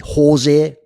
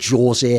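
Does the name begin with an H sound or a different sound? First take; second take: H sound; different sound. First: The name begins with an H sound. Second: The name begins without an H sound. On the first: This is the Spanish-speaking form of the name. "in a Spanish country, ... like with an H pronunciation" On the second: This is the Portuguese-speaking form of the name. "If you're from Portugal or Brazil, you say"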